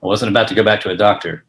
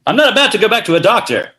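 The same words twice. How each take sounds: First: Low noir voiceover, much lower; brooding detective narration. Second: Higher spoken noir line; defiant detective retort; noir dialogue. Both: Acted. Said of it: "as a film noir".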